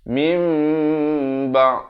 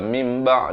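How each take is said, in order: First: The m sound is held long before b. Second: The m sound is cut short before b. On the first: The speaker calls it right. "Iqlab mesti dua harakat" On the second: The speaker calls it wrong. "tidak sempurna panjangnya"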